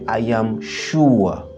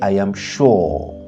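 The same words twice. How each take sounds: First: It is said with a British English pronunciation. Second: It is said with an American English pronunciation. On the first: "en anglais britannique" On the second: "en anglais américain"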